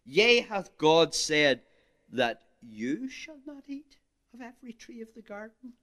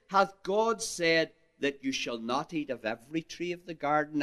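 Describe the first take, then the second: First: Tempting serpent voice, weight on "you"; stress on YOU. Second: Said in the usual way. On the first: Retold or imitated. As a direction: hiss the question, pressing "you" up high. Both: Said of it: "the emphasis is on that word".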